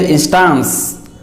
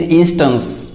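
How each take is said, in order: First: Instance ending in an open "-stahns"; wrong pronunciation. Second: Instance with a weak last vowel, IN-stuns; correct pronunciation. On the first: Teacher showing many people's mistake, instance as in-STAHNS. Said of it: "make a wrong pronunciation". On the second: Teacher correcting many people, instance said IN-stuns. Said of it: "but it is not instance". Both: Shown as a demonstration.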